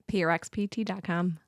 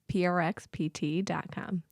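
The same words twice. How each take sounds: First: It is said at a normal, quicker pace. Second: It is said more slowly.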